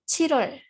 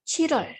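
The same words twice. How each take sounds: No difference in how they are said.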